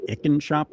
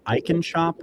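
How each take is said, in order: First: Icon said as ICK-un, short i; alternative pronunciation. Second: Icon said as EYE-con, long i; first pronunciation. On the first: Host offers another guess at the name, Icon as ICK-un. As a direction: say "Icon" starting like "ick", a bit higher. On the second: Host unsure what the shop is called, tries Icon as EYE-con. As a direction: say "Icon" starting with the word "eye". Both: Shown as a demonstration. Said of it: "however they pronounce it".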